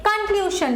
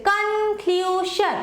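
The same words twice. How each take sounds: First: Said in the usual way. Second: conclusion very slow, weight on ক্লু; stress on middle syllable. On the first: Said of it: "conclusion লিখি". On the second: Shown as a demonstration. Teacher showing where the stress falls, conclusion stressed on ক্লু. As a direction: draw out ক্লু and drop শন in conclusion. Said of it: "ক্লিউ এর ওপর বেশি পড়ছে".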